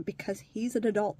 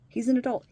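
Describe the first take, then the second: First: Said in the usual way. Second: "He's an adult" said much louder, "an" hit hard; stressed repeat. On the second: Real, not acted. Repeating what the welfare office tells her, loud and stressed. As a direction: slam down each word of "He's an adult". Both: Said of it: "They'll always tell me the same thing".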